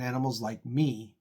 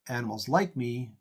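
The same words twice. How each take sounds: First: The stress falls on the word me. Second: The stress falls on the word like.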